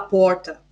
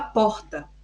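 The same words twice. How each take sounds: First: It is said with a countryside accent. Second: It is said with a Bahia accent. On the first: "no interior fala porta" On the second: "na Bahia a gente fala porta"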